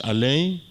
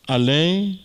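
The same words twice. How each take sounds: First: "além" with a rising ending, as we say it; our pronunciation. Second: "além" a little higher, the form not used here; the other pronunciation. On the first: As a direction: say "além" the local way. ("além" como a gente diz) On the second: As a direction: show the "além" we don't say. ("além" na outra pronúncia) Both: Shown as a demonstration. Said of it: "a gente diz além".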